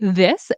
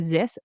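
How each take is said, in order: First: The word begins with a soft th sound. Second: The word begins with a buzzing z sound. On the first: The speaker calls it right. "say this" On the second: The speaker calls it wrong. "don't say ... zis"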